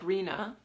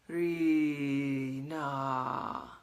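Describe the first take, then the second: First: The first syllable is short and plain. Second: The first syllable is drawn out long.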